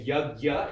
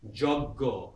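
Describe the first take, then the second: First: It starts with y and ends in an a vowel. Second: It starts with j and ends in an o vowel. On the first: "we say yagya in Hindi" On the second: "Bengalis will say joggo"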